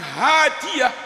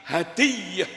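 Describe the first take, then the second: First: The first vowel is drawn out long. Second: The first vowel is kept short. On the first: A woman who gives guidance. The speaker calls it wrong. "bukan hadiah" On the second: A gift. The speaker calls it right. "tapi hadiah"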